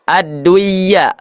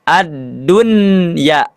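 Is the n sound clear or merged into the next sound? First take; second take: merged; clear. First: The n is merged into the following y. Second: The n is pronounced clearly before the y. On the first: The speaker calls it wrong. "ini tidak dibaca ad-dunya" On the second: The speaker calls it right. "tapi dibacanya ad-dunya"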